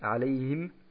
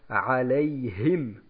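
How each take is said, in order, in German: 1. Der h-Laut in der Mitte wird weggelassen. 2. Der h-Laut in der Mitte wird deutlich gesprochen. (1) "wir sagen zum Beispiel nicht alayhim, ohne das auszusprechen" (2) "sondern wir sagen alayhim"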